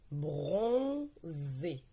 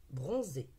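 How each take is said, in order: First: "Bronzé" stretched, long "bron", pause, then "zé"; word sounded out. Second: Said in the usual way. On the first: Shown as a demonstration. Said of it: "Maintenant, nous allons lire les mots". ("Bronzé" déchiffré en deux syllabes longues et séparées) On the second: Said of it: "c'est l'action de bronzer".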